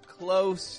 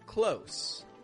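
First: The word ends with a buzzing z sound. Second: The word ends with a hissing s sound. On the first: It means to shut, as a verb. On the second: It means near, as an adjective or adverb.

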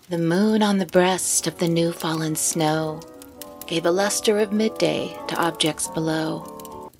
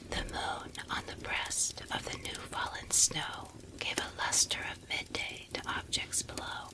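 First: It is spoken in a normal voice. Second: It is spoken in a whisper.

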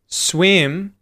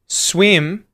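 First: The voice goes up on the word. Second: The voice goes up on the word.

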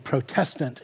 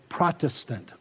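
First: It uses the older, no longer usual pronunciation. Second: It uses the current, usual pronunciation. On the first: The word is tied to protesting. "we don't say Protestant anymore" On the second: The word names the present-day tradition. "We say Protestant"

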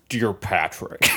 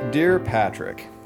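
First: It is read in a put-on imitation voice. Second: It is read in a natural own voice. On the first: The letter is voiced as its writer. "this is what I think Anthony sounds like" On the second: The letter is voiced as the reader. "I'm just going to read this in my voice"

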